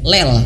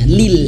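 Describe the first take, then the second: First: The vowel is an open 'eh' sound. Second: The vowel is a close 'ee' sound. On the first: The speaker calls it wrong. "tidak sadar membacanya kelel" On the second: The speaker calls it right. "bukan lel tapi lil"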